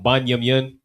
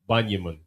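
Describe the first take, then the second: First: The syllables are kept full and separate. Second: The syllables are blended and shortened together. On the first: "It developed from Banyumyan" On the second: "Trying to say it in a practical way"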